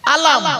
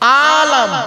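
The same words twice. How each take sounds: First: The vowel is kept short. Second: The vowel is stretched long. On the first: It means flag. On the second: It means world.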